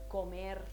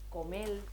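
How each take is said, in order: First: The word ends with an r sound. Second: The word ends with an l sound.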